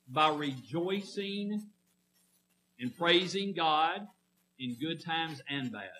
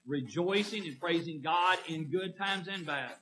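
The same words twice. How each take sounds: First: Rejoicing and praising drawn out slowly, word by word; slow emphasis. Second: Said in the usual way. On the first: Shown as a demonstration. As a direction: spell it out slowly for the congregation. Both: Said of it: "Does that make sense?".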